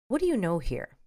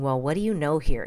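First: It is asked calmly, softly and curiously. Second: It is asked in a condescending tone.

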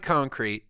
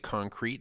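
First: The stress is on the first syllable. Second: The stress is on the second syllable. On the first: The speaker calls it right. "There we go. You did it" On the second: The speaker calls it wrong. "You're putting this weird emphasis on crete"

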